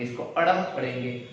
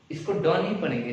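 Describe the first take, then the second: First: "अढ़" with a flapped retroflex r-like sound; correct reading. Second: "ड" as a plain retroflex d, the reading to avoid; wrong reading. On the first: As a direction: flick the tongue for "अढ़", not a hard d. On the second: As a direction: say "ड" with a hard tongue tap, not flapped. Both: Shown as a demonstration.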